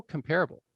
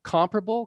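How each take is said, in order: First: "comparable" as com-PAIR-able; stress on second syllable. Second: "Comparable" as COM-pruh-bul, first syllable high; stress on first syllable. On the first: Teacher giving class another word, "comparable" stressed on second syllable. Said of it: "Comparable is not". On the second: Teacher giving class another word, "Comparable" stressed up front. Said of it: "Let's go to another one". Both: Shown as a demonstration.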